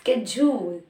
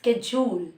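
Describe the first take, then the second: First: It is said in an American accent. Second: The same.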